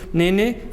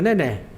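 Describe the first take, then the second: First: The final vowel is closed. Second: The final vowel is open. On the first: It refers to one child. "ese es el singular" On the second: It refers to more than one child. "Abertura, ese es el singular plural"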